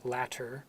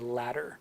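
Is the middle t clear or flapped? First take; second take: clear; flapped. First: The middle t is said clearly. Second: The middle t is a quick flap. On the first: It is careful speech. "if I say it carefully in American English, I would also say the T" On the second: It is everyday speech. "We often say latter"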